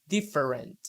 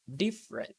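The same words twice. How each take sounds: First: The vowel after the first syllable is pronounced. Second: The vowel after the first syllable is dropped. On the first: The speaker calls it wrong. "you don't need to say different" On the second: The speaker calls it right. "by only saying diff and then moving to the rent"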